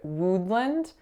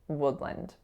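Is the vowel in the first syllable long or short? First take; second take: long; short. First: The first vowel is a long, tense oo. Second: The first vowel is a short, lax vowel. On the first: The speaker calls it wrong. "instead of that lax uh sound, I made it an oo" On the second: The speaker calls it right. "this word should be pronounced as woodland"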